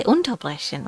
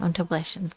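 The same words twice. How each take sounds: First: Unterbrechen with unter stressed, as you wouldn't say it; wrong stress on unter. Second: Unterbrechen with the stress on brech, unter kept light and softer; unstressed unter. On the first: Teacher demonstrating the wrong stress to students, stressed unter. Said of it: "where you don't really say unterbrechen". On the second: Teacher giving students the correct unstressed prefix, quiet and light. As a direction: let unter slide and land on brech in unterbrechen. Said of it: "is not really emphasized". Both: Shown as a demonstration.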